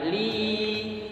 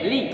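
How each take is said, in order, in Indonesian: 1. Vokalnya dibaca panjang. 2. Vokalnya dibaca sebentar saja. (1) "Maka dibaca panjang li-nya"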